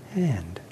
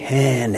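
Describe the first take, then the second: First: The word is said softly and quietly. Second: The word is said loudly and forcefully.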